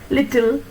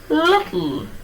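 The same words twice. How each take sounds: First: A clear vowel is heard before the final L. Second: The L is syllabic, with no vowel before it. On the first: This is the usual local pronunciation. "how do we normally pronounce this word?" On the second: This is how a native English speaker says it. "when an Englishman pronounces these words"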